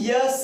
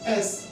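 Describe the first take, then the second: First: It begins with a 'y' sound before the vowel. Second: It begins directly with a plain vowel. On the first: The speaker calls it wrong. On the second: The speaker calls it right.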